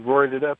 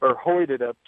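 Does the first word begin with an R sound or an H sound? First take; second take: R sound; H sound. First: The word begins with an English R sound. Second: The word begins with an H sound.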